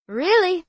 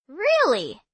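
First: High, loud "Really." stated as fact; emphatic confirmation. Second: Doubtful "Really?" with a falling finish; surprised question. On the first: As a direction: confirm "Really." with eager certainty. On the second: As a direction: ask "Really?" in disbelief. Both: Acted.

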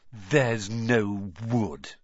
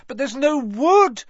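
First: Slow mocking imitation. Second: High loud panicked; cried. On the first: Ron mocking Hermione's panic, slow scornful imitation. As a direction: mimic her words scornfully. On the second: Acted. Hermione panicking in the plant, high loud cry. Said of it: "Hermione cried".

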